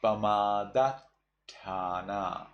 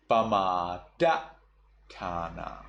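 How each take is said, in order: First: Pamadatthana held on the double T; pamadatthana, Sri Lankan held consonant; stuck double T. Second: Pamadatthana cut off abruptly after DA; pamadatthana, slow, with the first T dropped; cut-off sound. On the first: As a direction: slowly linger on the tt of pamadatthana. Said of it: "you will get stuck on the t sound". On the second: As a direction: chop pamadatthana after da, then a gap. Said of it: "you just cut off". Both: Shown as a demonstration.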